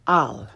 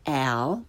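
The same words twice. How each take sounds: First: "al" with open Italian ah, lower; correct Italian pronunciation. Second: "al" with English short a as in cat; learner's mispronunciation. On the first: Teacher corrects beginners, "al" with open Italian ah. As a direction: say "al" with a as in father. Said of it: "follow it with the correct pronunciation". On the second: Teacher shows beginners' mistake, "al" with English short a. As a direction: say "al" like English name Al. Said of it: "first the way most people". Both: Shown as a demonstration.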